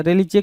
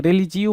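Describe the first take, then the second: First: रिलीजे ending on a bare JE; wrong pronunciation. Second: रिलीजियो ending on two vowels, JI-O; correct pronunciation. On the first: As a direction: end रिलीजे with "jay". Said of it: "रिलीजे क्या होता है?". (रिलीजे, आख़िर में "जे" वाला गलत उच्चारण) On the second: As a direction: end रिलीजियो with "ji-o". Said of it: "रिलीजियो होता है ना". (रिलीजियो, आख़िर में "जि-यो" वाला सही उच्चारण) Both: Shown as a demonstration.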